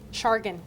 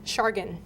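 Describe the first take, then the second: First: The word ends with a 'gan' sound. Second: The same.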